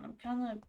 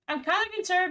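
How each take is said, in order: First: Said in the usual way. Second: "kinda" pushed up high and loud; kinda concerned, louder. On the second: Real, not acted. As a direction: repeat "kinda" higher and louder.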